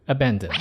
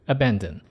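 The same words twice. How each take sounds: Both takes have the same delivery.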